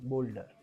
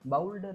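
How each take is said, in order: First: The first vowel sounds like 'oh'. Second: The first vowel sounds like 'ow'. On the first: The speaker calls it right. "ओ यूचा उच्चार इथे काय आलेला आहे ओ असा" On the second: The speaker calls it wrong. "बाउल्डर नाही"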